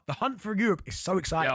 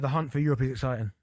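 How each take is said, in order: First: It is said with lively excitement. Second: It is said flatly, without excitement.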